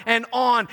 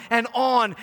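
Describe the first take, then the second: No difference in how they are said.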